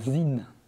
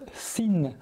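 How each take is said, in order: First: The name begins with a buzzing Z sound. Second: The name begins with a hissing S sound. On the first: It is the original German way of saying it. The speaker calls it right. "se prononcent Z. La prononciation d'origine est donc Zinn" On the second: It is the French way of saying it. The speaker calls it wrong. "dire Sinn à la francophone"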